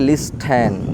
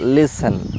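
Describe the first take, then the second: First: A t sound follows the s. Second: No t sound follows the s. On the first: The speaker calls it wrong. "অনেকে বলে লিস্টেন" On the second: The speaker calls it right. "But এটা হবে লিসেন"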